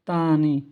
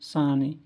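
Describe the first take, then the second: First: The word begins with a t sound. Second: The word begins with an s sound. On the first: The speaker calls it wrong. "আমরা আগে বলতাম তানি, তানি, এটাও ভুল" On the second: The speaker calls it right. "দন্তাস্ব আকার সা, দন্তান্ন দীর্ঘ ইকার নি, সানি, এইভাবে বললে আর ভুল হবে না"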